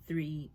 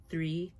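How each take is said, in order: Both takes have the same delivery.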